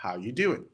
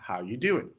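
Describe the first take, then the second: First: The words are condensed and run together. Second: The same.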